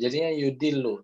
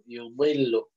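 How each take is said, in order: First: The d-like consonant is light and thin. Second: The d-like consonant is heavy and thick. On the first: It turns into a different letter. The speaker calls it wrong. "kalau misalkan nggak ditebalkan ... nyasarnya huruf dal" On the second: It keeps the intended letter. The speaker calls it right. "Tapi kalau misalkan tebal kan jadinya yudillu"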